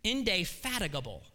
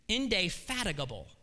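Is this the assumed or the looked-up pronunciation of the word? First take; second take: looked-up; looked-up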